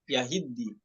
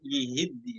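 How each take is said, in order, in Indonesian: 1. Suku kata pertama memiliki vokal a. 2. Suku kata pertama memiliki vokal i. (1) "dibaca fathah" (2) "ya-nya dibaca kasroh"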